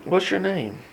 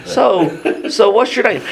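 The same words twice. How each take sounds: First: Quiet, calm question. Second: Higher, breezy small-talk question; casual, chatty. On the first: Jesus calmly asking the possessed man, softly. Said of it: "'cause he's so calm". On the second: Jesus casually greeting the possessed man, breezy and high. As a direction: ask it like a stranger at a farmer's market. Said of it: "like being at the farmer's market". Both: Retold or imitated.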